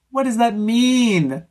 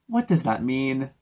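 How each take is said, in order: First: Higher, louder, slow baffled What does that mean; incredulous repeat. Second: Said in the usual way. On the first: Real, not acted. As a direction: stretch it in disbelief.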